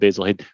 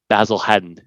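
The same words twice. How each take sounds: First: Basil is said in the plain American way. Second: Basil is said in the English way. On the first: This is the brand's usual name. The speaker calls it right. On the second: The speaker is mocking a pretentious insistence. The speaker calls it wrong.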